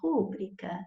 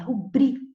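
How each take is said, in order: First: The stress is on the first syllable. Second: The stress is on the second syllable. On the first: The speaker calls it wrong. "ouvimos as pessoas falando rúbrica" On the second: The speaker calls it right. "esta palavra tem a sílaba tônica aqui, ó, no bri"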